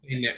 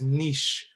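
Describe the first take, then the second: First: The word is said with an English pronunciation. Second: The word is said with a French pronunciation. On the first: "I'm not very good at French, so" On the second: "the French way of saying it is niche"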